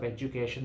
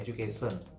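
First: The consonant sounds are pronounced the standard way. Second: The consonant sounds are pronounced in an altered way. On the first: The speaker calls it right. "instead of education" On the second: The speaker calls it wrong. "they say education"

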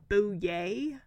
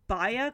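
First: The surname is said like 'Bouye'. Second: The surname is said like 'Baya'. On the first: The speaker calls it right. "It's actually Bouye" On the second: The speaker calls it wrong. "I was pronouncing this author's last name wrong"

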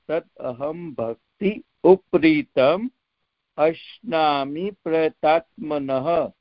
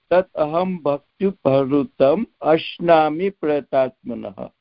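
First: The words are said separately, split at word boundaries. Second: The words are run together with joined sounds. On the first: "you can decompound it" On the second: "For Sanskrit, you can say"

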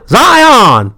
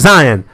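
First: The name is said in a Southern accent. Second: The name is said in a general accent. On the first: "it's Southern" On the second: "most of us are like Zion"

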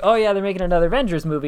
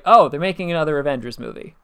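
First: It sounds excited and enthusiastic. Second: It sounds flat and unenthusiastic.

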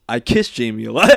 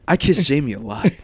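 First: It is read in a plain, ordinary voice. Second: It is read in a put-on sexy voice.

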